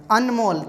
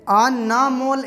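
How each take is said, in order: First: अनमोल said tight as ənmol; अनमोल with न closing fast; अनमोल, no vowel after न; quick n. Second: अनमोल said as "anamol" with a vowel after न; अनमोल with न held long; drawn-out n. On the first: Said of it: "न बहुत जल्दी ख़त्म हो रहा है". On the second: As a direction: stretch अनमोल into a-na-mol. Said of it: "ऐसे अगर हम लोग बोलते हैं तो ए होता". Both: Shown as a demonstration.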